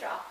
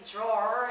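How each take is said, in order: First: The word sounds like 'draw'. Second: The word sounds like 'drawer'. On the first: The speaker calls it right. "so I say draw" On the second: The speaker calls it wrong. "if I try to say drawer, it's weird"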